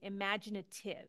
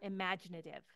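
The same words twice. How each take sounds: First: The consonant before -ive sounds like a T. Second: The consonant before -ive sounds like a D. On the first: "Do I say it like a T" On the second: "or do I say it like a D?"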